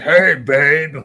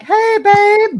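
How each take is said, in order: First: It is said in a deep, masculine voice. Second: It is said in a higher, feminine voice.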